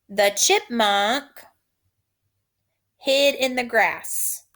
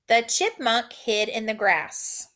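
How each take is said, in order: First: "The chipmunk hid in the grass." slow, phrase by phrase; slow dictation. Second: Said in the usual way. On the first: Shown as a demonstration. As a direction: dictate it slowly in chunks. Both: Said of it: "Repeat after me".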